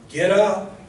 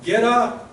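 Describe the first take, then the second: First: Emphatic command. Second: "Get up!" pitched higher and louder, full force; forceful command. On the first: Acted. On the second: Shown as a demonstration. Preacher shows the force of Jesus' command, loud and high. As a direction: hit it like an exclamation mark. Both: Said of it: "Notice how emphatic that is".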